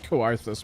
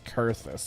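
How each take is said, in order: First: The first syllable has an audible O, 'ko-ar'. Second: The first syllable sounds like 'kur', no O. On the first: "I like Coarthus more" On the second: "I guess the O is silent"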